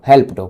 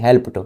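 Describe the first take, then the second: Both takes have the same delivery.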